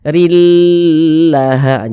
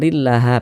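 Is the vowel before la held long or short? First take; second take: long; short. First: The vowel before la is stretched long. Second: The vowel before la is kept short. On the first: The speaker calls it wrong. "jangan dipanjangkan begitu" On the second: The speaker calls it right. "pendek begitu"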